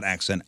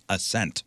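First: "Accent" said with a hard k, AK-sent; "Accent" as in a foreign accent, the wrong car name. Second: "Ascent" stressed on SENT, no k sound; right name. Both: Shown as a demonstration. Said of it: "Oh, I'm sorry, not Accent".

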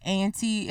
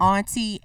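First: Auntie with a flat "a" like "ant-ie"; pronunciation: auntie. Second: Auntie with a broad "ah" vowel, like "ahntie"; pronunciation: auntie. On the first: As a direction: say auntie as æ̃nti. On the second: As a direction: say auntie as ɑnti, the ah of father. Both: Shown as a demonstration.

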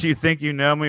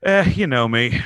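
First: Intense wrestler catchphrase, "think" leaned on; Edge catchphrase. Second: Shrugging, offhand "Eh", lower and louder. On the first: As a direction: hit "think" like a wrestler's threat. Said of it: "with Edge, it's". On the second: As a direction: toss it off casually with a lazy "Eh". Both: Retold or imitated.

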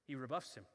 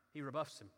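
Both takes have the same delivery.

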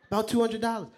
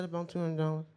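First: "About two hundred dollars" echoed high and louder in disbelief; incredulous echo. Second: Said in the usual way. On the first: Retold or imitated. Grandfather echoing "About two hundred dollars" to the boy, incredulous. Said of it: "he was screaming". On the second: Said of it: "I said".

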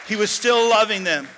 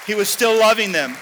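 First: Loud cry with the weight on still; preaching shout. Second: Loud preacher's cry, raised high; preaching shout. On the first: Preacher repeating his point to the church, loud cry. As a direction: hammer the repeat home. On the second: Preacher shouting to his church, full-voiced cry. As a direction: belt it out to the congregation. Preacher repeats phrase loudly. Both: Real, not acted.

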